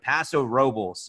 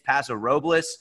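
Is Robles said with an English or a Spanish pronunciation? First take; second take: English; Spanish. First: Robles is said with an English pronunciation. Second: Robles is said with a Spanish pronunciation. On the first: This is how the locals say it. The speaker calls it right. "I pronounced that correctly" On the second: This is how outsiders assume it is said. The speaker calls it wrong. "A lot of people think it's"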